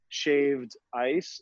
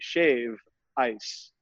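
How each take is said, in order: First: The D at the end of shaved is clearly pronounced. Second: The D sound is dropped, giving shave ice. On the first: This is how visitors say it. The speaker calls it wrong. "hear me uh, enunciating shaved" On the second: This is how locals say it. The speaker calls it right. "We say shave ice, uh, not shaved. Drop the D"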